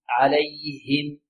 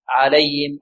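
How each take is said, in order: First: The h sound is crisp and clearly pronounced. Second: The h sound is loose and weakly pronounced. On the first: The speaker calls it right. "هكذا الهاء تكون صافية واضحة" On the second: The speaker calls it wrong. "هكذا يأتي بها هاء مائعة لا"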